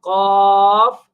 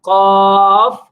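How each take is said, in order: No difference in how they are said.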